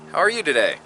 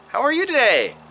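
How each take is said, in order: First: The voice falls at the end. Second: The voice rises at the end. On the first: It comes across as forceful. "and then go huh" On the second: It is asked as a question. "go he"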